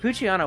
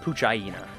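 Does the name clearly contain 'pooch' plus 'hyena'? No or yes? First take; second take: no; yes. First: The name is said without separate 'hyena'. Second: The name is said as 'pooch' plus 'hyena'.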